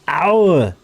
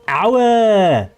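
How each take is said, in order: First: It is a short, angry exclamation. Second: It is dragged out long.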